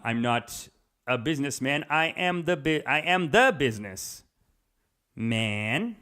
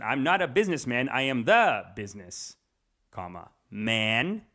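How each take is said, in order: First: Said in the usual way. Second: Long slow pause after "business", then "man" alone; pause before man. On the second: Shown as a demonstration. Quoting [name]'s line to show the comma before "man", slow pause. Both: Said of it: "the way he said the second one".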